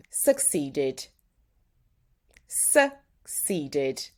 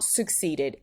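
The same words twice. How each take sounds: First: "succeeded" with a clear final "ded"; right version. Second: "succeeded" slower, mock-wrong; wrong version. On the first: Teacher modelling correct "succeeded" against the mistake. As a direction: finish "succeeded" on a full "ded". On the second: Teacher imitating the student's wrong "succeeded". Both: Shown as a demonstration. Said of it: "not succeeded".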